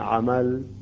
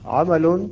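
First: The word ends on a plain unvoweled l. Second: The word ends with an added n sound. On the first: "نقف على اللام الساكنة عمل" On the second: "إذا كان ضمتين أو كسرتين، مثل هنا عمل"

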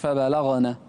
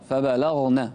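First: The gh sound is followed by a vowel. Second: The gh sound has no vowel after it. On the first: The speaker calls it wrong. "مش" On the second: The speaker calls it right. "سكن الغين"

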